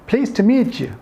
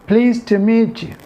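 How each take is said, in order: No difference in how they are said.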